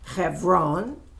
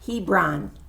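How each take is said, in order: First: It is said with its native local pronunciation. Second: It is said as the English spelling suggests. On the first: The speaker calls it right. "but it's really Hebron" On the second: The speaker calls it wrong. "how you might pronounce it, H E B R O N"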